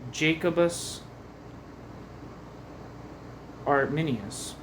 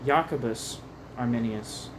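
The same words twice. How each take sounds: First: The name begins with an English J sound. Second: The name begins with a Y sound.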